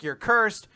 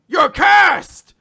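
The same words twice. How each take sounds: First: You're cursed raised a little, tune rising; a toned-down echo of You're cursed; mild mock yell. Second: Screamed much higher and louder, You're cursed hit hard; furious shout. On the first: Retelling Langris's rant. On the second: Retold or imitated. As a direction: scream the accusation at your brother. Langris yells at Finral.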